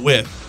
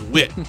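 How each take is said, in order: First: The word ends with a th sound. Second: The word ends with a plain t sound. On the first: "not with" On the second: "It says wit"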